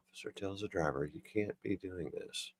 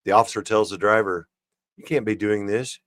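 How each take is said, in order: First: Very soft, barely voiced reread; hushed, slowing as it goes; reading to oneself. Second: Said in the usual way. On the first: Real, not acted. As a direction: puzzle over the line under your breath. Rereads the line to himself.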